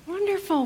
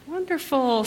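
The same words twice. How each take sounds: First: A much higher "Wonderful", up and then falling; delighted welcome. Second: Bright welcome. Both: Real, not acted. Greeting children at the front.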